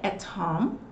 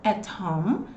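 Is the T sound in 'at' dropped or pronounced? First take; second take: pronounced; pronounced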